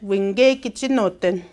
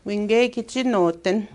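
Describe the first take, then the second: First: Winge stressed, the phrase drawn out slowly; emphasis on Winge. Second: Slow, careful model pronunciation; slow demo. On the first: Teacher showing students where the emphasis falls. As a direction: lean on Winge and take it slow. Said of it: "You wanna put emphasis on that". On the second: Teacher modelling the phrase slowly for students. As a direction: lay each word out slowly. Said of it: "It is very windy today". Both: Shown as a demonstration.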